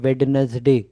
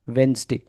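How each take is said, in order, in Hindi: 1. बीच का d sound साफ़ बोला जाता है। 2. बीच का d साउंड साइलेंट रहता है। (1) "इसको लोग क्या बोलते हैं" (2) "नहीं नहीं नहीं, वेंसडे"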